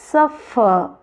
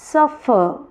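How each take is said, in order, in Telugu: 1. ఒత్తు మొదటి సిలబుల్ మీద ఉంటుంది. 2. ఒత్తు మొదటి సిలబుల్ మీద ఉంటుంది.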